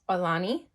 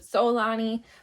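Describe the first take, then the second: First: The name begins with a click sound. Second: The name begins with a plain s sound. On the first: The speaker calls it right. "the most accurate was Olani with a click at the beginning" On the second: The speaker calls it wrong. "some said Solani"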